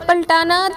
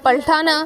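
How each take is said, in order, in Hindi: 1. t ध्वनि अल्पप्राण है। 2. t ध्वनि महाप्राण है। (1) "शुमाली हिंद में बोला जाता है" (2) "दक्कन में बोली जाती है"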